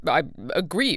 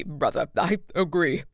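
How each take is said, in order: First: "I agree" with stress and a rise on "agree"; rising agree. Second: "I agree" with the "I" punched hard; stress on I. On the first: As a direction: lift "agree" upward, questioning lilt. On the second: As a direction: lean on "I" in "I agree". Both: A narrator's reading. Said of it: "with a conspiratorial laugh".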